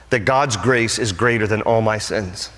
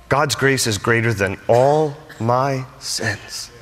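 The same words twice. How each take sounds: First: Said in the usual way. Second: "all my sins" stretched out, each word set apart; slow down and weigh "all", "my", "sins" separately; weighty emphasis. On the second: Real, not acted. Preacher repeats grace line to congregation, slow stress on "all my sins".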